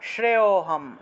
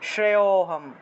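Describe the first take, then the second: The two takes are said the same way.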